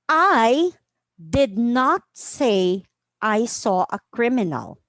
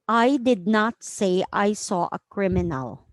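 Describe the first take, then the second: First: The sentence is read with varied pitch and emphasis. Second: The sentence is read in a flat monotone. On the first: "I will read it in different tones, volume, and intonation" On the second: "On a monotone"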